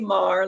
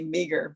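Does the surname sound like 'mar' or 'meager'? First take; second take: mar; meager. First: The surname is one syllable rhyming with star. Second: The surname is two syllables sounding like meager. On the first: "It's [name], like star" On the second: "some people call me Meager"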